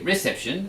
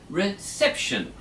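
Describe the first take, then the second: First: The stress is not on the second syllable. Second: The stress is on the second syllable. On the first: The speaker calls it wrong. "we don't say reception" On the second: The speaker calls it right. "we say reception on the second syllable"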